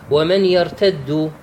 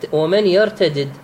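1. يندمج صوتا الدال في دال واحدة مشددة. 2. يُنطق صوتا الدال منفصلين.

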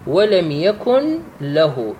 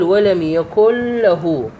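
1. تُنطق النون بوضوح قبل صوت l. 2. تندمج النون مع صوت l الذي بعدها. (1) "ولك أن تقرأها مفككة" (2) "لك الحق أن تقرأها مدغمة"

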